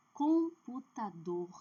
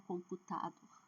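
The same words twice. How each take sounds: First: Computador, slow, stretched and strong on -DOR; stress on last syllable. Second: Computador with the stress moved off -dor onto an earlier syllable; wrong stress. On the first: (tônica forte no final de Computador) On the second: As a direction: misstress computador, leaving the final -dor weak. (computador com a última sílaba fraca) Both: Shown as a demonstration. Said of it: "não é computador".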